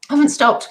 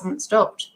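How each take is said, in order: First: Higher and louder, stress on haven't; repeating to viewers with higher, louder emphasis on haven't; emphatic repeat. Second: Said in the usual way. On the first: Real, not acted. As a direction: insist on it the second time, punching haven't.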